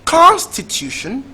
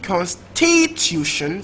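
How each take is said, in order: First: The stress is on the first syllable. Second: The stress is on the second syllable.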